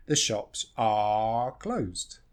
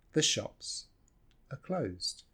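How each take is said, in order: First: "are" drawn out as a full "ah" in "The shops are closed"; very slow, with "are" given its full vowel; full, stressed "are". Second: "are" in "the shops are closed" shrunk to a quick uh; reduced "are". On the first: Teacher showing the unreduced verb, stressed "are". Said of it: "very rare that we stress verb to be". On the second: Teacher showing what we just say, reduced "are". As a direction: keep "are" weak and unstressed before "closed". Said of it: "So we just say". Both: Shown as a demonstration.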